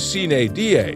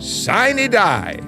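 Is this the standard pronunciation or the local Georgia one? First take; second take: standard; Georgia local. First: The phrase gets its standard textbook pronunciation. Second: The phrase gets a local Georgia-style pronunciation. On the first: "Technically, the correct pronunciation is sine die" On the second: "in Georgia, you gotta say it like he did"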